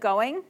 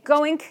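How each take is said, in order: First: The word ends in a voiced ng sound. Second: The word ends in a voiceless k sound.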